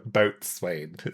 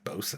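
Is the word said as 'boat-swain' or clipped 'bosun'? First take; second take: boat-swain; bosun. First: It is said in full as boat-swain. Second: It is said clipped as bosun. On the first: "You're such a dork when you say it like that" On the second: "fine, bosun if you want to be fucking about it"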